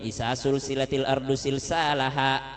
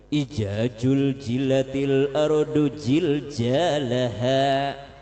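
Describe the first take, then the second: First: The consonants are mostly turned into S sounds. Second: The consonants are mostly turned into J sounds. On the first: "Orang Sulawesi semua huruf jadi huruf S" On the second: "Jadi J semua"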